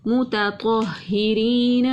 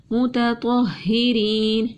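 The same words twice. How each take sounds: First: متطہرین slowly, ت thin and ط heavy; Quranic recitation. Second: متطہرین repeated, thin ت, heavy ط; Quranic recitation. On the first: Tajweed teacher shows heavy ط against thin ت, slow recitation. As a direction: recite متطہرین with light ت, full ط. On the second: Tajweed teacher repeats the word for students, slow recitation. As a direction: say متطہرین slowly again. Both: Shown as a demonstration. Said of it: "تا کو باریک پڑھتے ہیں".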